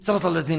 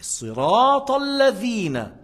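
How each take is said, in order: First: The long vowels are clipped short. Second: The long vowels are held full length. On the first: The speaker calls it wrong. "Il n'a pas fait le alif de sirat. Il n'a pas fait le ya de الذين" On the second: The speaker calls it right.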